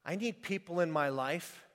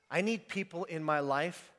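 Both takes have the same delivery.

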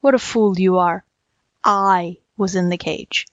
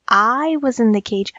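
First: Lowered voice, slowing on the correction; impatient tiger. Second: Tiger's line echoed in lighter confusion; muddled jackal. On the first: Tiger correcting the muddled jackal, impatient and low. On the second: Jackal wrongly repeating the tiger's words, muddled. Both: A narrator's reading.

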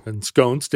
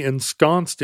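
First: Ensconced with a long O, en-SKOHNST; alternative pronunciation. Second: Ensconced with a short open O, en-SKONST; alternative pronunciation. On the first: Shown as a demonstration. Host taking up co-host's joking version, Ensconced as en-SKOHNST. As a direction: say Ensconced with the vowel of stone. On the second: Real, not acted. Host describing the stone in the chair, ensconced as en-SKONST. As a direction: say ensconced with the vowel of gone. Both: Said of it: "Or ensconced, we don't know".

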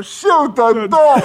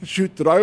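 First: Very high, loud, drawn-out scream; background yelling. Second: Higher order breaking into laughter; retold order. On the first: Retold or imitated. Prankster playing the victim in the background, hysterical scream. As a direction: wail it hysterically at full volume. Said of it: "in the background yelling". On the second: Rattled doctor orders paramedics, laughing retold command. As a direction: imitate a doctor's command through amusement. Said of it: "Ralph goes".

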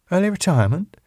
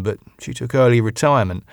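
First: High rising disbelieving "Early retirement?"; surprised question. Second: Said in the usual way. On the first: Acted. Sally incredulous at the news.

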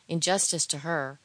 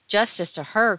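First: Said in the usual way. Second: Loud, higher echo with a rising end; exclaimed protest, sharply louder; indignant cry. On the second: A narrator's reading. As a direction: throw the words back as an outcry. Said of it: "cried Edgar".

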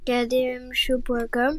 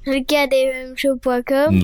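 First: Distant, off-mic voice; far from mic. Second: Repeated closer to the mic, slower; closer, louder. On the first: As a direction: speak from too far away. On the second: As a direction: lean in and say it again clearly. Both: Real, not acted. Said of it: "t'es loin du micro".

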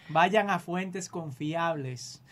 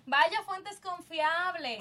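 First: Vayan a fuentes confiables, drawn out slowly word by word; slow emphatic plea. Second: Vaya a fuentes confiables, stretched out slowly; slow emphatic advice. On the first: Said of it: "por favor". (ruega despacio, marcando cada palabra: vayan a fuentes confiables) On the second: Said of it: "si usted quiere de verdad". (aconseja despacio y marcado: vaya a fuentes confiables) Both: Shown as a demonstration.

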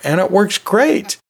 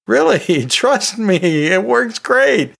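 First: Said in the usual way. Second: High, slow, laughing emphasis on great; emphatic insistence. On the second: Real, not acted. Teacher assuring listeners it really works, emphatic. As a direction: sell it hard, stretching great.

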